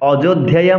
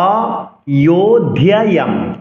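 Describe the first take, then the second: First: The letter is sounded as a hard consonant. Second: The letter is sounded as a soft y glide. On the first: The speaker calls it wrong. "বলা যাবে না" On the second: The speaker calls it right. "অয়ো অন্তস্থ জকে ইয় উচ্চারণ করতে হবে।"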